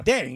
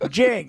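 First: The name begins with a D sound. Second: The name begins with a J sound. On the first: The speaker calls it right. "it's D. It's Ding" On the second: The speaker calls it wrong. "how do you get Jing out of the D?"

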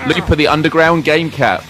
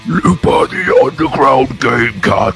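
First: It is said in his normal voice. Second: It is said in a weird enemy-character voice.

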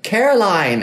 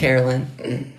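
First: The last syllable sounds like 'line'. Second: The last syllable sounds like a short 'lin'. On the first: This is how the name's owner says it. The speaker calls it right. "she was finally like" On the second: This is how the name was said by mistake for years. The speaker calls it wrong. "What were you saying?"

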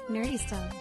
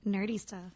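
First: It is said in a plain voice. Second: It is said in a sensual voice.

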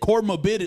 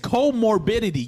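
First: The first syllable has an r, like cor. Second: The first syllable is a plain co. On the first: The speaker calls it wrong. "You said comorbidity" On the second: The speaker calls it right. "Because it's comorbidity"

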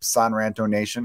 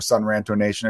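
First: The first syllable sounds like 'san', rhyming with Ron. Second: The first syllable sounds like 'sun'. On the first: The speaker calls it wrong. "I always want to say San because it rhymes with Ron" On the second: The speaker calls it right. "but I know it's SUNRANTO"

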